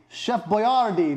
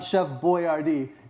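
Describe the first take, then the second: First: The surname gets an Italian-style pronunciation. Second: The surname sounds like English 'boy R D'. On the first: The speaker calls it right. "his name should be Chef Boyardee" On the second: The speaker calls it wrong. "It's like, hey, it's your boy R D"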